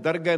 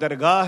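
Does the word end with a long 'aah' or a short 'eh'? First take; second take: eh; aah. First: The word ends with a short 'eh' sound. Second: The word ends with a long 'aah' sound. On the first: The speaker calls it wrong. "ਇਸ ਨੂੰ ਦਰਗਹਿ ਨਾ ਪੜਿਆ ਕਰੋ" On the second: The speaker calls it right. "ਇਹ ਸ਼ਬਦ ਦਰਗਾਹ ਹੈ"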